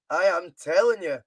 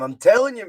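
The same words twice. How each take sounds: First: Slow repeat that splits out am and leans on telling; slow deliberate repeat. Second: Raised, louder insisting telling you, with stress on telling; emphatic insistence. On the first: Streamer repeating himself to chat, slow deliberate stress. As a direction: spell it out word by word, no doubt left. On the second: Streamer insisting to his chat, raised emphatic insistence. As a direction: press it on the viewer like a mate. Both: Real, not acted.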